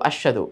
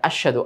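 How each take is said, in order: First: The h sound blends away and is barely heard. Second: The same.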